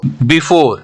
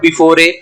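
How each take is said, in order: First: The final e is not pronounced. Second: The final e is pronounced as a vowel. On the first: The speaker calls it right. "ई silent है, यहाँ पे ई का pronunciation नहीं करते हैं।" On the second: The speaker calls it wrong. "अगर ये हम ई का प्रोनाउंसिएशन करेंगे ... गलत प्रोनाउंसिएशन हो जाएगा"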